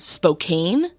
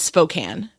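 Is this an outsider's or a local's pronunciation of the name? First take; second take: outsider; local. First: It is pronounced the way an outsider says it. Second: It is pronounced the way a local says it. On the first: The speaker is unfamiliar with the place. The speaker calls it wrong. "like a like a true outsider" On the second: The speaker knows the place. The speaker calls it right. "It's it's Spokane"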